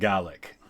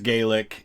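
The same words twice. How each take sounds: First: It is said with the Scottish pronunciation. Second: It is said with the Irish pronunciation. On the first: "in Scottish it's pronounced Gaelic" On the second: "Irish is Gaelic"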